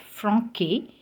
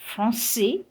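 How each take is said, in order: First: Franquet with a hard K, "fron-kay"; français mispronounced as franquet, K for the cedilla; C misread as K. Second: Français with an S sound, "fron-say"; cedilla as S. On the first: Teacher showing the mistake to avoid, franquet with K. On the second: Teacher contrasting for learners, français said with S. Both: Shown as a demonstration. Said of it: "instead of franquet".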